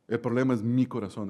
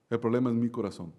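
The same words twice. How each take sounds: First: "mi" pressed as the key word before "corazón"; stress on mi. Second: "problema" lifted, "corazón" falling away; stress on problema. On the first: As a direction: hit the word "mi", it's my own heart. (acento en "mi", señalándose a sí mismo) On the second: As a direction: lean on "problema". (acento en "problema", cayendo al final) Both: Shown as a demonstration. Repeats the line with new stress.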